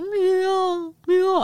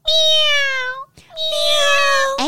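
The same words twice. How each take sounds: First: It sounds like a rougher old cat. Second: It sounds like a high newborn kitten.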